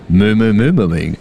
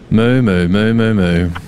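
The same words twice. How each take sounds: First: It sounds flirty, like Joey from Friends. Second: It sounds disappointed.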